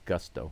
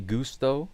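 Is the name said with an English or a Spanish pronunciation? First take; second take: English; Spanish. First: The name is said with an English pronunciation. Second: The name is said with a Spanish pronunciation. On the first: The speaker calls it right. "the Astros announcers are correct" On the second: The speaker calls it wrong. "then you're giving his name a Spanish pronunciation"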